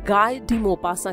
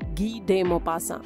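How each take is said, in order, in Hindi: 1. पहला नाम 'gai' जैसा सुनाई देता है, फिर 'dee'। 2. पहला नाम 'gee' जैसा सुनाई देता है, फिर 'de'। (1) "अक्सर लोग उनके नाम का गलत उच्चारण करते हैं" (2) "असल में फ्रेंच भाषा के उच्चारण के हिसाब से"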